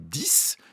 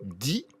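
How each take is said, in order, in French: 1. Le mot se termine par un son s. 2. Le mot se termine sans consonne prononcée. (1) "si je veux dire euh, j'en veux dix" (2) "si je veux dire dix mille"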